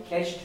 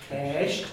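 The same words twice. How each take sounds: First: "Kesht" with a short, quick e; short-e "Kesht" as the model; short vowel. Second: "kesht" with the e stretched out long; long-e mispronunciation of "kesht"; vowel wrongly made long. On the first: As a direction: keep the e of "Kesht" brief. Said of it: "it's a shorty". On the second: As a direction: draw out the e in "kesht". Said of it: "what I hear a lot of people making long". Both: Shown as a demonstration.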